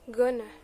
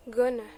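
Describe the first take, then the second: First: The words are merged into one short form. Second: The words are merged into one short form.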